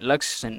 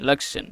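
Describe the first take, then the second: The two takes are said the same way.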